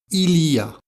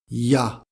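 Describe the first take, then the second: First: All three syllables are said in full. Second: It is squeezed into one short syllable.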